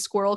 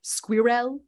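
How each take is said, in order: First: "squirrel" said the American way, one syllable, skwurl; a relaxed American r in "squirrel". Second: Put-on "squirrel" with a French accent, skwee-rel, ending on a rise; a French speaker attempting "squirrel". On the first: Retold or imitated. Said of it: "like an American says". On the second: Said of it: "in his French voice".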